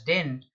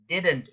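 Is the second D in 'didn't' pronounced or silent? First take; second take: silent; pronounced. First: The second D sound is dropped. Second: The second D sound is clearly pronounced. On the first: The speaker calls it wrong. "You don't pronounce it as didn't" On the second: The speaker calls it right. "Didn't is the right pronunciation. The second D is not silent"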